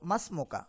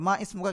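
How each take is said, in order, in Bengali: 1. দুটি শব্দ শুরুর স্বরধ্বনি ছাড়াই মিশে যায়। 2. দ্বিতীয় শব্দের শুরুর স্বরধ্বনিটি উচ্চারিত হয়।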